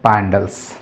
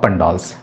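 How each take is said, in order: First: The first vowel sounds like the vowel in 'cat'. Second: The first vowel sounds like the vowel in 'cup'.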